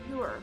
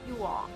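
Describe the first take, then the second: First: The two words merge into one short syllable. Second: Both words are said fully and separately.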